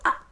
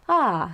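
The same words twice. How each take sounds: First: It ends with a sharp glottal cutoff. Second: It ends with a soft, gradual fade.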